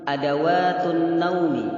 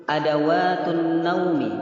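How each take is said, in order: No difference in how they are said.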